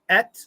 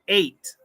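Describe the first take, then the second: First: The vowel is a short E sound. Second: The vowel is a long A sound. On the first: The speaker calls it wrong. "Number one was a short E" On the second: The speaker calls it right. "Number two was a long A"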